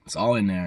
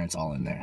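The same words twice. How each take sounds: First: Said in the usual way. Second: Repeated much softer and lower; quiet echo. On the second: Shown as a demonstration. Repeating himself to the camera, soft and low. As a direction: let it fall away like an echo.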